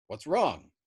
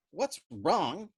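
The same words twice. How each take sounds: First: Said in the usual way. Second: Incredulous cry. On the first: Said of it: "asked Yossarian". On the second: A narrator's reading. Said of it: "Doc Danica cried".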